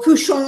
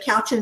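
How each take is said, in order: First: The word is pronounced the French way. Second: The word is pronounced the English way. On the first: "is like the French pronunciation" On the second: "But couchant is fine"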